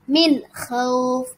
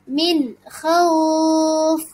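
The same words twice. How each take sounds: First: The long vowel is held for two counts. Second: The long vowel is held for six counts. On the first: "Boleh dibaca dua" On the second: "Atau boleh dibaca enam"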